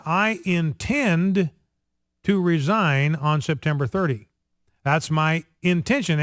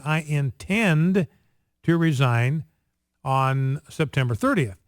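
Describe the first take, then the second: First: Politician stressing "intend" with care. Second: "intend" stretched slow and rising; mimicking a senator's careful emphasis on "intend"; stress on intend. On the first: Retold or imitated. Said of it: "he emphasized that word". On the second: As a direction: drag out "I intend", hitting "intend". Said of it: "placed so much emphasis on the word intend".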